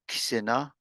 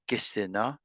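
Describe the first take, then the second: First: The k runs straight into the s. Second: A short vowel sound separates the k and s. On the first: "We go from the K to the S right away" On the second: "Or you could use the eh sound"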